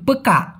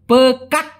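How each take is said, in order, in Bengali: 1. শেষের k প্রায় নীরব, এবং ছাড়া হয় না। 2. শেষের k কড়াভাবে ও স্পষ্টভাবে ছাড়া হয়। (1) "মনে হয় কি লাস্টের কটা উচ্চারণ করে না" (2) "এভাবে বলা দরকার নাই ... এতটা কর্কশভাবে মালয়েশিয়ানরা বলে না"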